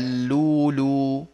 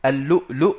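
First: The word has long u vowels, no stops. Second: The word has glottal stops in it. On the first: The hamza is replaced when stopping on the word. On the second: This is the original form with the hamza.

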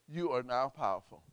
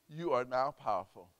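No difference in how they are said.

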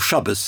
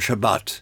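First: The word ends with an s sound. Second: The word ends with a t sound.

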